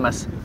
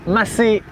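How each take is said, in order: First: The name is said with one syllable. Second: The name is said with two syllables. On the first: The speaker calls it wrong. "quarante-cinq minutes qu'on le dit mal" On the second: The speaker calls it right. "maintenant on le sait"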